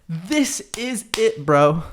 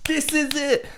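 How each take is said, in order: First: Drawn-out slow version of "This is it"; slowed, put-on driver voice; slow mock driver. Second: Higher put-on voice of the driver; a hint of an eager driver; imitating the driver. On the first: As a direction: stretch "This is it" slowly. Driver's words repeated. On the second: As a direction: mimic the Uber driver announcing it. Driver's words at end of ride.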